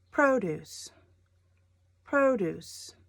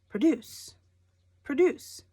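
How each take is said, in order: First: PRO-duce, falling off after PRO; stress on first syllable. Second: Pruh-DUCE, punched second syllable; stress on second syllable. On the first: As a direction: say produce with weight on PRO. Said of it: "The emphasis on produce". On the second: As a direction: say produce with weight on DUCE. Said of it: "It's a verb". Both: Shown as a demonstration.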